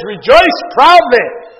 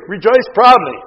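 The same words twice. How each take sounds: First: "Rejoice proudly." drawn out slowly, both words leaned on and louder; slow emphasis. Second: Said in the usual way. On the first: Shown as a demonstration. Preacher reading the Greek meaning to the church, slow and emphatic. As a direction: lay each word down slowly and firmly. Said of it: "it says". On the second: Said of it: "definition of the Greek".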